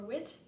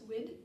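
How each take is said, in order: First: The word ends with a t sound. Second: The word ends with a d sound. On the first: "pronounced as a T sound or a D sound" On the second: "pronounced as a T sound or a D sound"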